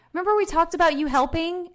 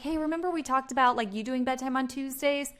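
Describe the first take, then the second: First: Higher, pointed nagging tone; accusing nag; nagging reminder. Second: Light, softer, easy reminder; a soft friendly nudge. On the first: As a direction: make it sound like a reproach. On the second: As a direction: gently remind them, no pressure. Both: Shown as a demonstration. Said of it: "versus this".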